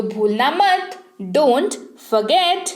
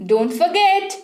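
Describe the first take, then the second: First: Very slow dictation pace, each sound clear; slow, careful repeat. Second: Said in the usual way. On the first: Shown as a demonstration. Teacher repeating the phrase very slowly so students can copy. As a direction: spell it out slowly for the learners. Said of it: "forget का मतलब होता है भूलना".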